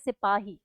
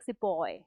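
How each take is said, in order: First: It is said with an Indian pronunciation. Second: It is said with a British pronunciation.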